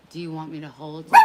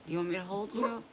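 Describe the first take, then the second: First: Loud, quick question to the dog; loud fast question. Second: Gentle question to the dog; nice somber voice. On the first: Real, not acted. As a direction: blurt it out over the noise. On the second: Shown as a demonstration. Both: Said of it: "trying to talk in a nice, somber voice".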